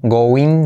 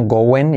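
First: "going" with a tense "een" ending; sound to avoid. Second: "going" with a relaxed "en" ending; correct sound. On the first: Teacher shows learners what not to say, "go-een". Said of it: "no, going y como es". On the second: Teacher corrects learners, "going" with an e sound. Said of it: "going y como es". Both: Shown as a demonstration.

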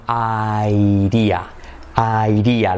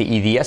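First: "airía" drawn out, opening on "eye", D tapped; American IDEA. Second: "idea" starting with a Spanish I; wrong IDEA, "idía". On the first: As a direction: stretch "airía" slowly. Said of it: "la D como una R suave". ("airía" alargado, con R suave) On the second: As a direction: say "idea" as "ee-DEE-a". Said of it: "no se dice idea". ("idea" como "idía") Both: Shown as a demonstration.

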